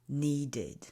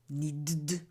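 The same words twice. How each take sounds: First: The ending is said as a separate syllable. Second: The ending is merged into the previous sound. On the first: The speaker calls it right. "you need to separate" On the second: The speaker calls it wrong. "If we don't separate these sounds"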